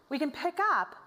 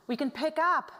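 Both takes have the same delivery.

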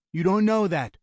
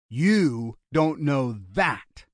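First: Quick, high-pitched rebuttal; insistent objection. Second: Slow, drawn-out words; pointed retort. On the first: Brother contradicting the gunman's despair, urgent objection. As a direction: counter it straight away, pitched up. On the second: Gunman repeating his brother's words, slow challenge. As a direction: throw it back word by word. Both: A narrator's reading.

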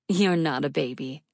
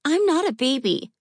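First: Said in the usual way. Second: Put-on high little girl, grumbling and pouting; grumbling child. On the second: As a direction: grumble like an offended kid. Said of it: "she grumbled".

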